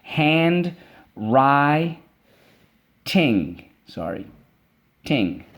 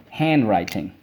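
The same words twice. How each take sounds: First: "Handwriting" split into hand, wri, ting; "Handwriting" chanted in parts, with a murmured sorry; syllable by syllable. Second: Said in the usual way. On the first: Shown as a demonstration. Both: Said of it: "Let's go".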